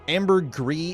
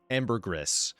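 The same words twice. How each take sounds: First: The word is pronounced the French way. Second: The word is pronounced the English way. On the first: This is the original form of the word. "ambergris is the French word" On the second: This is the adapted form later accepted as correct. "official bastardized English pronunciation of ambergris"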